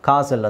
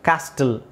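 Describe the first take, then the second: First: The word is said without a t sound. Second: The word is said with a t sound. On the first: The speaker calls it right. "ಕಾಸಲ್ ಅಂತ ಹೇಳ್ತಾರೆ" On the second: The speaker calls it wrong. "ಕ್ಯಾಸ್ಟಲ್ ಅಂತ ಹೇಳಲ್ಲ"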